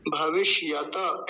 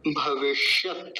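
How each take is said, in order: First: भविष्यत ending wrongly in a full ta, bhavish-ya-ta; wrong example: open the त of भविष्यत into ता; added final vowel. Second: भविष्यत slowly, stopped dead on a bare t; halant त. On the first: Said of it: "ऐसा नहीं बोलेंगे". (भविष्यत का त पूरा, गलत उदाहरण) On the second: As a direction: stretch भविष्यत and end it without a vowel after त. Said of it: "पूरा शब्द कैसे बोला जाएगा". (भविष्यत में त हलंत, धीरे) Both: Shown as a demonstration.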